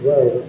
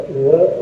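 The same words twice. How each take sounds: First: WO with a full, rounded long o; full-vowel form. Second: WO reduced to a short "wuh"; fast-speech form. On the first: Teacher shows the form not used in fast speech, full vowel. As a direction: give WO its whole o vowel. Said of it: "not with wo". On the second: Teacher shows how it sounds spoken faster, reduced vowel. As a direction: say WO with a quick weak vowel. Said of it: "when you speak faster". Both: Shown as a demonstration.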